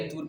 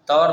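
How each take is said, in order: First: The vowel is pronounced as a long 'oo'. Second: The vowel is pronounced as 'au'. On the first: The speaker calls it right. "तूर पढ़ेंगे" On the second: The speaker calls it wrong. "तौर नहीं पढ़ेंगे"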